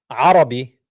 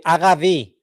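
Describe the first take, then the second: First: "Arabi" with a throat-squeezed A and tapped r; Arabic ayn. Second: "Aravi" with a plain A, throaty r and v; mimicked Hebrew pronunciation. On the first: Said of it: "They can't say the A". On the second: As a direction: say "Aravi" with the r gargled at the back. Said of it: "They say Aravi". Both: Shown as a demonstration.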